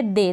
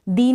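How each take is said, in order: First: Said in the usual way. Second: दी with an "ee" vowel instead of "ay"; wrong-reading demo, दी with a long ee; mispronounced vowel. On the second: Shown as a demonstration. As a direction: say दी as "dee", not "they". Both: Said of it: "दी नहीं पढ़ेंगे".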